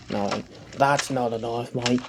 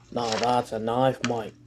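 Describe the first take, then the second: First: Slow, soft mock Australian accent, Crocodile Dundee style. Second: Slow, soft mock Australian accent, landing on knife; the punchline in an Australian accent, proudly slow. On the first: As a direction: drawl it like a bushman in an Australian accent. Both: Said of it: "You like my Australian accent?".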